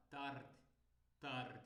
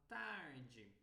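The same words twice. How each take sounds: First: "tarde" short, final vowel swallowed; European pronunciation. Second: "tarde" long, ending "djee"; Brazilian pronunciation. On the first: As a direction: cut tarde off after the d, Portugal style. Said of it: "um europeu vai falar". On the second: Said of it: "o sotaque brasileiro fala". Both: Shown as a demonstration.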